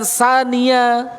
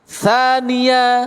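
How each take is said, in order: First: The word begins with a plain s sound. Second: The word begins with a breathy th sound. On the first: The speaker calls it wrong. "bukan sania" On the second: The speaker calls it right. "Hanya tha-nya saja"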